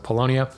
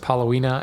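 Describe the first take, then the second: First: The word ends with a 'lonia' sound. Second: The word ends with a 'wina' sound. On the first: The speaker calls it right. "So Polonia" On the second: The speaker calls it wrong. "I've always pronounced it Palowina, and I know that's not how I pronounced it"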